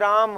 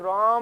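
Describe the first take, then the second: First: The vowel is said short and plain. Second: The vowel is drawn out very long. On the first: "सीधा नहीं कहते राम" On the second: "लंबा ध्वनि को खींच दिया"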